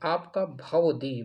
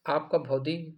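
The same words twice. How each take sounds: First: "भवदी" slowly, with भ-व opened out; drawn-out भवदी. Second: "भौदी" with the first syllable run together as भौ; wrong form भौदी. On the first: Teacher sounds the word out for students, slow separated भवदी. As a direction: stretch "भवदी" so the व is heard. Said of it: "भवदीन में ये देखिए आप". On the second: Teacher shows students the faulty word, भौदी run together. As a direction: say "भौदी" in two syllables, bhau-di. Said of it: "तो ये भी गलत हो". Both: Shown as a demonstration.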